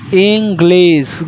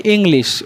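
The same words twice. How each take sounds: First: ইংলিশ slowly with a clear g and sharp s at the end; ইংলিশ drawn out as ing-glis; correct pronunciation. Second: ইংলিশ mispronounced ing-lish; wrong pronunciation. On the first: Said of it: "উচ্চারণটা হবে". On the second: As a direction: demonstrate the usual error in ইংলিশ. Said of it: "ওটা কিন্তু ভুল". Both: Shown as a demonstration.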